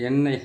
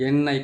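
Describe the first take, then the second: Both takes have the same delivery.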